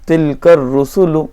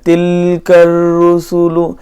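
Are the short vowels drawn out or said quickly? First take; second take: quickly; drawn out. First: The short vowels are said short and quick. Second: The short vowels are stretched out long. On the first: The speaker calls it right. "ज़बर ज़ेर पेश को जल्दी पढ़ा" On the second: The speaker calls it wrong. "उसको खींच कर पढ़ रहे हैं"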